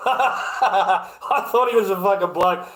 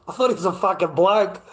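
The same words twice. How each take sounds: First: Slow, laughing through the words. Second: Said in the usual way. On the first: Real, not acted. Streamer to chat, repeating the mix-up through real laughter. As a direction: crack up while repeating it.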